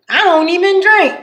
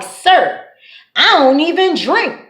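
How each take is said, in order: First: Innocent denial. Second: Mock innocent denial. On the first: Retold or imitated. Drunk friend lies to officer. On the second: Retelling sister's innocent lie.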